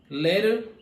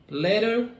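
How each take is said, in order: Both takes have the same delivery.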